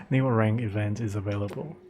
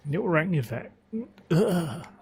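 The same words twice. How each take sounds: First: Said in the usual way. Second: Voice cracking. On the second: Real, not acted. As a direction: voice cracks and breaks up high. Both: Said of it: "I lost my voice just now".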